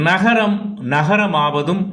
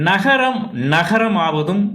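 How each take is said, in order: The two takes are said the same way.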